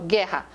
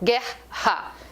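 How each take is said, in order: First: The two R letters make one sound. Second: The two R letters are sounded separately. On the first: The speaker calls it right. "eu falo guerra. São dois que tem o som de um" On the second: The speaker calls it wrong. "Eu não falo guerra"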